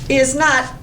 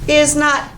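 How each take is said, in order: The two takes are said the same way.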